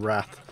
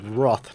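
First: The word is said in an American way. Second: The word is said in a non-American way. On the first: The speaker calls it wrong. "not wrath" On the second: The speaker calls it right. "That's how you say the word, Americans. You say it wrath"

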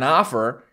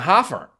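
First: The word starts with a vowel sound. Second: The word starts with an h sound. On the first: "you're not putting in an offer" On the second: "you take a word that doesn't have an H on it, and you puts one on"

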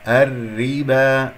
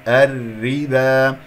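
No difference in how they are said.

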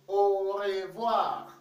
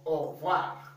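First: It is said slowly, every sound fully pronounced. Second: It is said quickly, with sounds run together. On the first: "the way it is pronounced" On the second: "You want to say it very fast"

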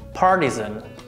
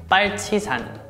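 First: It is said with American pronunciation. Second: It is said with Korean pronunciation. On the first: "American pronunciation" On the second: "Korean pronunciation"

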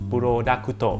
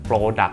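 First: Extra vowels follow the consonants, ending in 'to'. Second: The final consonants are clipped, with no vowels. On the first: "ในภาษาญี่ปุ่นเขาจะออกเสียงว่า" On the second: "ภาษาไทยก็จะพูดว่า, product, อย่างนี้"

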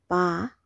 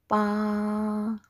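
First: The pitch falls from high to low. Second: The pitch stays high and level. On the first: "The third tone is a falling tone" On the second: "The first tone is very high level"

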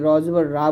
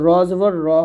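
First: The vowel is light and open, like Bengali aa. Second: The vowel is heavy, with lips slightly rounded. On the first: The speaker calls it wrong. "এই ভুলগুলো করা যাবে না" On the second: The speaker calls it right. "র জবর র হবে"

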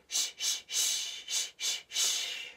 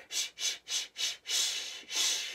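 No difference in how they are said.

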